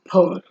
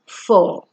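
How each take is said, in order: First: It begins with a popping p sound. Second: It begins with a hissing f sound. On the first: The speaker calls it wrong. "not por" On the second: The speaker calls it right. "It is four"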